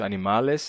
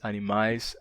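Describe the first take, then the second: First: An L sound is heard between the vowels. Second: No L sound is heard between the vowels. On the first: This is the older form of the word. "o L simples entre vogais sumiu" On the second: This is the later form of the word. "o L simples entre vogais sumiu"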